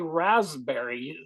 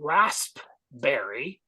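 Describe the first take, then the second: First: The P sound is left silent in the word. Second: The P sound is pronounced in the word. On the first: "The P is for some reason silent" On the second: "I don't know why we can't say raspberry"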